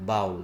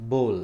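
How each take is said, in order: First: "bowl" said wrongly as baul, ow like cow; the mistaken "bowl" with an ow sound. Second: "bowl" said as bold, long o, like bole; correct bowl. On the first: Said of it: "that is not". ("bowl" को ग़लत बाउल बोलना) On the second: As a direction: say "bowl" with a long o, rhyming with hole. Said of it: "The right pronunciation". ("bowl" को बोल बोलें, लंबा ओ) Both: Shown as a demonstration.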